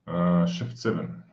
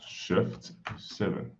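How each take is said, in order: First: Said in the usual way. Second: A puzzled whisper, slow; quiet slow whisper, reading a shortcut. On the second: Real, not acted. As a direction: whisper it slowly to yourself. Repeats shortcut to himself.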